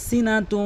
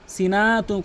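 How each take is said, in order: First: সিনাতু with a quick short "na"; short noon. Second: সিনাতু with a long drawn "naa"; wrongly stretched. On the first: Teacher showing what must be said, সিনাতু with short noon. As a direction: keep "na" in সিনাতু brief, no stretch. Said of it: "দ্রুত উচ্চারণ করতে হয়". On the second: Teacher showing what never to say, সিনাতু with stretched noon. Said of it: "নুনকে টেনে উচ্চারণ করে". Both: Shown as a demonstration.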